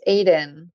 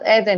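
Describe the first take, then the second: First: The name begins with an 'ay' sound. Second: The name begins with an 'eh' sound. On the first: The speaker calls it right. "it's Aiden" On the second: The speaker calls it wrong. "they think Eden, like paradise, Eden, but it's not"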